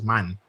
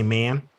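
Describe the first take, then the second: First: The word is said with a Jamaican vowel. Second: The word is said with an American vowel. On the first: "they don't say man as man" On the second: "They say man"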